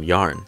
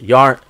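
First: The word is said hesitantly, like a question. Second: The word is said loudly and firmly. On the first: The speaker doubts the pronunciation. The speaker calls it wrong. "I always question myself for how I pronounce it" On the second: The speaker commits to the pronunciation. The speaker calls it right. "I'm saying it loud and proud"

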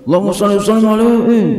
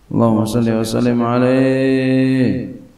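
First: It is said with exaggerated, excessive loudness. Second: It is said moderately loud, heard by neighbours.

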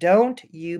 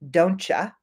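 First: The two words are said separately and fully. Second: The two words blend into one with a ch sound.

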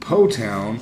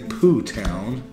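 First: The first word has the vowel of go. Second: The first word has the vowel of too.

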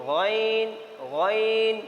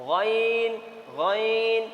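No difference in how they are said.

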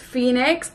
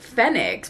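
First: The first syllable sounds like 'fee'. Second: The first syllable does not sound like 'fee'. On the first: "some people say it's Phoenix" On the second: "I pronounce the F as F, not Fee"

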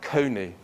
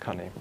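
First: The first vowel sounds like the vowel in 'cone'. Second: The first vowel sounds like the vowel in 'bunny'. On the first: The word avoids sounding rude. The speaker calls it right. "they would pronounce it as we do now" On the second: The word could sound like something rude. The speaker calls it wrong. "because that sounds much more acceptable rather than cunny"

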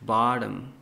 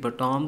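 First: The stress is on the first syllable. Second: The stress is on the second syllable. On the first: The speaker calls it right. "पहले वाले जो हमारे पास होता है alphabet उसको लंबा और दूसरे वाले को छोटा पढ़ना है" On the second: The speaker calls it wrong. "बटॉम तो नहीं आपने कभी सुना होगा"

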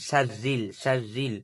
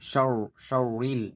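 First: The r is pronounced light and thin. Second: The r is pronounced heavy and thick. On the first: The speaker calls it right. "এখানে পাতলা হবে তাহলে উচ্চারণ" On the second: The speaker calls it wrong. "যদি মোটা হতো তাহলে উচ্চারণ হতো এরকম"

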